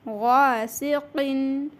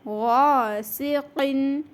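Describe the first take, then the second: First: It starts with a thick, throaty gh sound. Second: It starts with a thick, throaty gh sound.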